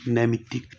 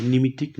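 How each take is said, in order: First: नैमित्तिक with the नै vowel, a little softer; teacher modelling the correct नैमित्तिक; correct version. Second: निमित्तिक with a plain short नि, as the mistake; teacher voicing the wrong निमित्तिक; wrong version. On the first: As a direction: give the right नैमित्तिक, opening with नै. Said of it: "नैमित्तिक होता है". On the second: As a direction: say निमित्तिक with short i as the error to avoid. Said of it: "निमित्तिक नहीं". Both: Shown as a demonstration.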